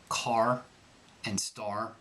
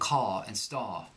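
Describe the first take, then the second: First: The final R sound is pronounced. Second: The final R sound is dropped. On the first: "in the American accent"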